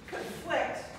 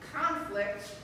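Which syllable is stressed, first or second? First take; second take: second; first. First: The stress is on the second syllable. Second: The stress is on the first syllable. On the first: It is a verb meaning to act against. "means to act against" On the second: It is a noun meaning a fight. "is a noun that means fight"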